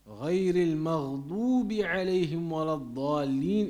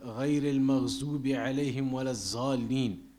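First: The emphatic consonants keep their heavy emphatic sound. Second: The emphatic consonants are said as a plain z. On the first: The speaker calls it right. "is the right one" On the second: The speaker calls it wrong. "that is wrong"

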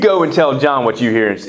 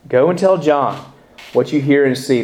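First: It is said in a harsh, rebuking tone. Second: It is said in a gentle, comforting tone. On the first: The listener is being scolded. The speaker calls it wrong. "don't read it like that" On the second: The listener is being reassured. The speaker calls it right. "Words of comfort. Words of assurance"

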